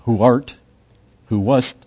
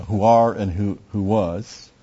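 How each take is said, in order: First: Grand archaic "Who art, who wast", said louder; lofty old-fashioned reading; mock Old English. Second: Said in the usual way. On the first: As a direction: ham up the King James wording. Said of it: "go back to the Old English and go". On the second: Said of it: "and you just, you know".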